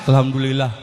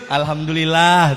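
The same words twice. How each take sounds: First: It is said curtly, without a smile. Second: It is said cheerfully, with a smile.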